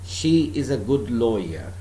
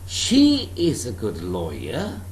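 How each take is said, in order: First: The voice falls at the end. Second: The voice rises at the end. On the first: It is a plain statement of fact. "There is no question mark at the end of the sentence" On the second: It asks whether she really is a good lawyer. "I am putting a question"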